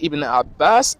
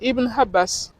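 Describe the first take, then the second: First: The second word begins with a throaty pharyngeal sound. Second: The second word begins with an h sound. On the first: The speaker calls it right. "c'est plutôt un aïn qui est dans le nom" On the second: The speaker calls it wrong. "C'est pas un ha qui est dans le nom"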